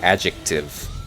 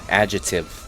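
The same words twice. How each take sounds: First: The c sound in the middle is clearly heard. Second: The c sound in the middle is dropped. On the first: "like actually enunciate the C" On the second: "you're supposed to supposed to say"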